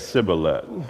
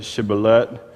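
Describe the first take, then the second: First: The word begins with an 's' sound. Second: The word begins with a 'sh' sound. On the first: The speaker is from Ephraim. The speaker calls it wrong. "They would just say it with the S" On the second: The speaker is from Gilead. The speaker calls it right. "they couldn't pronounce the S H"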